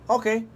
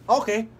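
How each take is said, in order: Both takes have the same delivery.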